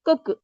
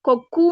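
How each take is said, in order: First: The final u is short, lips not rounded. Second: The final u is full, with rounded lips. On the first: The speaker calls it right. "குற்றிய லுகரம்" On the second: The speaker calls it wrong. "இங்க கொக்கு என்று சொல்ல மாட்டோம்"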